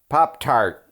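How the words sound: It is said in a Chicago accent. "What about Chicago?"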